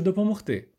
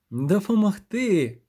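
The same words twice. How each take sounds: First: Said in the usual way. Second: Slow, higher, incredulous echo; scornful snort. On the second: A narrator's reading. Sorceress throws his offer of help back, snorting. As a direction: stretch ДОПОМОГТИ into a scoffing question. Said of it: "пирхнула вона".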